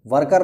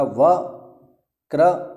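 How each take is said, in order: First: वर्कर with the r moved before k, like English worker; वर्कर as the error to avoid; wrong pronunciation. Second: वक्रर with the r cluster right after k, slowly; careful teacher's वक्रर; correct pronunciation. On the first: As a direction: say वर्कर the mistaken way, var-kar. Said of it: "वर्कर नहीं होगा". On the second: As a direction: say वक्रर as vak-rar, the cluster kept together. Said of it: "इसका सही उच्चारण यही होगा". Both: Shown as a demonstration.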